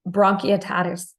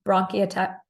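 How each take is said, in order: First: "Bronchiectasis" said slowly, syllable by syllable; careful retry. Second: Tongue tripping over a new retainer; wearing a retainer. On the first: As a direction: carefully spell out "Bronchiectasis" slowly, despite the retainer. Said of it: "so I'm tripping over my word". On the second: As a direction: stumble on "bronchiata-" through a retainer. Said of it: "I just got my new retainer installed, so I'm tripping over my word". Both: Real, not acted.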